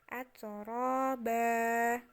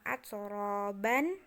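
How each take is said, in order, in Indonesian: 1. Kata itu berakhir dengan vokal a panjang. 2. Kata itu berakhir dengan bunyi n. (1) "tapi jadinya atraba" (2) "Bukan atroban"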